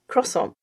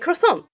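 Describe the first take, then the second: First: The stress is on the first syllable. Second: The stress is on the second syllable. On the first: It is the French way of saying it. The speaker calls it wrong. "In French, the emphasis is on, on the beginning symbol" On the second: It is the American way of saying it. The speaker calls it right. "So I say it in the American way"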